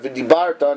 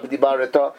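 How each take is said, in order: First: No vowel is heard after the r sound. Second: A short vowel is heard after the r sound. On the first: The speaker calls it right. "V'dibarta is a Shvanach" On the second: The speaker calls it wrong.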